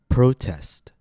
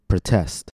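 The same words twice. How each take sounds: First: The stress is on the first syllable. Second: The stress is on the second syllable. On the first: It is a noun: a public demonstration. "First, I'll say it as a noun, with stress on the first syllable" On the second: It is a verb: to object publicly. "After that, I'll say it as a verb, with stress on the second syllable"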